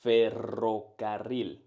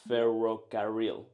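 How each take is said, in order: First: Ferrocarril with strong trilled double R, slow; rolled R. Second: English speaker accent. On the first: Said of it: "this is how you should do it". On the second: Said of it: "English speakers roll their R's like this". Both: Shown as a demonstration.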